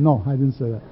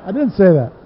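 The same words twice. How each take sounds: First: Said in the usual way. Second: "didn't" in "I didn't say that" pressed louder, with a falling end; emphatic denial. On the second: Shown as a demonstration. Preacher playfully insists to the congregation, louder and emphatic. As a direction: insist on it, hitting "didn't" harder.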